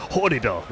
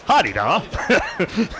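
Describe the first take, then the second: First: First version of "Hardida", evenly said; contrasted pronunciation. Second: "Hardida" pushed higher, as the rejected version; contrasted emphasis. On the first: Commentator offers one pronunciation of the bird's name, measured emphasis on "Hardida". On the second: Commentator contrasts the bird's name with another version, exaggerated emphasis on "Hardida". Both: Shown as a demonstration. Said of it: "it's all about where you put the emphasis".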